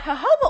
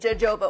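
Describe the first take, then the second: First: The word begins with an H sound. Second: The word begins with a J sound. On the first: The speaker calls it right. "you have to pronounce the J's with H's" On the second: The speaker calls it wrong. "You might look at it and read jojoba oil"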